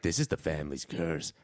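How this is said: It is said in an eerie, ominous way.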